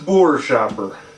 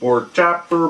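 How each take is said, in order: First: The second part starts with an 'sh' sound. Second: The second part starts with a 'ch' sound. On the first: The speaker calls it right. "It's Boer Shopper" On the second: The speaker calls it wrong. "No, it isn't Boar Chopper"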